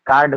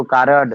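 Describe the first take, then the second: First: Said in the usual way. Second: "कारड" in two syllables, kaa-rad; unschooled mispronunciation. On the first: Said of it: "को कारड". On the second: Shown as a demonstration. Teacher showing unschooled speech, mispronounced "कारड". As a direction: add a vowel before the d in "कारड". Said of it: "ऐसे तमाम शब्द हैं".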